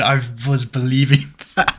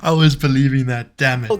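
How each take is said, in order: First: Laughing through the words, caught out; co-host laughs after falling for the made-up story; laughing at being fooled. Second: Louder, mock-indignant complaint; co-host protests that he fell for the made-up story; mock outrage. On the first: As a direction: laugh it out, half annoyed at being tricked. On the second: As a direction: protest loudly that you fell for it. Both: Real, not acted. Caught out by a joke.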